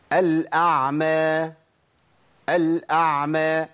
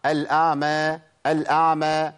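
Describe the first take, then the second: First: "الأعمى" slowly, with a clear ع before the م; correct ع. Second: "الأعمى" as "al-aama", ع swallowed; imitated dropped ع. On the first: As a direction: draw out "الأعمى", ع fully articulated. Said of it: "نجيب مثال تاني". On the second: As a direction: replace the ع in "الأعمى" with a long vowel. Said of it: "بنسمع". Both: Shown as a demonstration.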